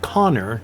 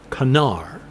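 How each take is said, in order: First: The name is said with an English pronunciation. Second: The name is said with the native pronunciation. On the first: "pronounce them Danthel and Connor because it's easier for me as an English speaker" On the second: "Connor is closer to Canar"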